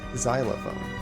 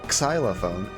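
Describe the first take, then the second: First: The word starts with a 'z' sound. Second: The word starts with a 'ks' sound. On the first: The speaker calls it right. "it sounds almost like a Z and an S combined" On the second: The speaker calls it wrong. "It's not xylophone"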